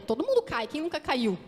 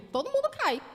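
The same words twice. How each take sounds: First: Mildly voiced dismissive shrug; a light offhand imitation of what others think. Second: Repeats the phrase higher, with a pointed edge; pointed retort. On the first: Preacher imitating the congregation's shrugging thought, mildly offhand. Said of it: "muitos podem pensar". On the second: Shown as a demonstration. Preacher answering her own quoted objection, pointed and high. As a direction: toss the line back up high to challenge it. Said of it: "Mas o contexto era diferente".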